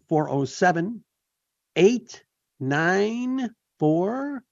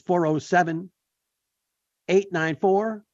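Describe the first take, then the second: First: It is said slowly and deliberately. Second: It is said at normal speed.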